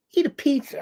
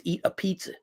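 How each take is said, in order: First: Eat a pizza jumps much higher in disbelief; scoffing high-pitched repeat; incredulous. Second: Said in the usual way. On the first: Shown as a demonstration. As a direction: say Eat a pizza like it's a ridiculous feat.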